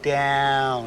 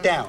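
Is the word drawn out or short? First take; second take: drawn out; short. First: The word is drawn out long. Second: The word is said short and clipped. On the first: The speaker calls it right. "It's an elongated down. It's like down" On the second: The speaker calls it wrong. "It's not down"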